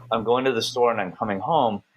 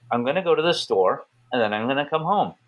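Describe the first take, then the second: First: Said in the usual way. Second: Emphatic, with punched-up STORE and HOME; emphatic English intonation. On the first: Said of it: "So, like, if I say". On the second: Shown as a demonstration. Showing American intonation if I wanna be emphatic, emphatic. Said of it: "if I wanna be emphatic".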